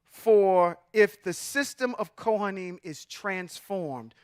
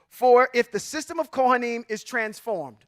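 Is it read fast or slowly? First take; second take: slowly; fast. First: It is read more slowly and deliberately. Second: It is read at a normal, quicker pace.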